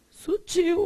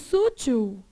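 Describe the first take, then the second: First: The stress falls on the second syllable. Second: The stress falls on the first syllable. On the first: The speaker calls it right. "Sutil, uai" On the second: The speaker calls it wrong. "Existe sútil?"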